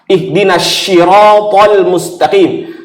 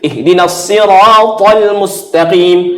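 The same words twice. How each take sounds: First: Sirat starts with an sh sound. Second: Sirat starts with an emphatic s sound. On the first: Guide us to the straight police. The speaker calls it wrong. "jadi syah" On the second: Guide us to the straight path. The speaker calls it right. "Itu kan sot ya"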